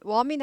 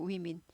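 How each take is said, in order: First: "women" wrongly said WO-min; mispronounced women. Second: "women" said WI-min; corrected women. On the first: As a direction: say "women" with the first syllable of woman, WO-min. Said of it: "woman 아니고 women 발음이". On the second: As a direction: say "women" with a wi sound at the start. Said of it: "위로 바뀝니다". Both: Shown as a demonstration.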